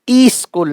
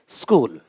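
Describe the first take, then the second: First: A vowel sound comes before the s. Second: The word starts directly with the s. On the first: The speaker calls it wrong. "ई स्कूल नहीं है" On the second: The speaker calls it right. "आधा स रहता है"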